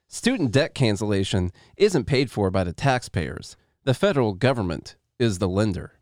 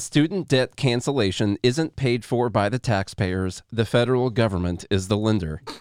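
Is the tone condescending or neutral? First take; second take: condescending; neutral. First: It is said in a condescending, uppity tone. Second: It is read in a plain, neutral tone.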